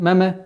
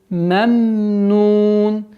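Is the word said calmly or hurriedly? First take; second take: hurriedly; calmly. First: The word is rushed, with a bounce on the second m. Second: The word is said calmly, holding the second m. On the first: The speaker calls it wrong. "торопливость в этом моменте переходит в, в калькаля" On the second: The speaker calls it right. "А нужно спокойно"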